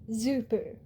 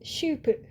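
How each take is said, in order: First: The name starts with a z sound. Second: The name starts with a sh sound. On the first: The speaker calls it wrong. "A lot of people will say Zupu. It's not" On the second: The speaker calls it right. "it's more like an S H sound"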